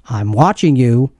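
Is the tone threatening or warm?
threatening. It sounds threatening, like a warning.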